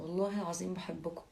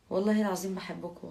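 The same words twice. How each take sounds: First: Said in the usual way. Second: Said out loud and strong, والله العظيم punched; louder heartfelt vow. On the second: Real, not acted. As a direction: declare it loudly to the viewers. Emphatic vow of love to viewers. (بصوت عالي ومؤكد)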